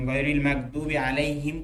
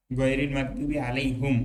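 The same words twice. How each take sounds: First: আলাইহিম ending in "him", as in Hafs; Hafs reading. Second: আলাইহুম ending in "hum", not "him"; Warsh reading. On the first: Teacher recites the Hafs reading, ending আলাইহিম. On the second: Teacher recites the Warsh or Nafi reading, ending আলাইহুম. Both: Shown as a demonstration. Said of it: "হিমের জায়গায় তার হুম পড়ে".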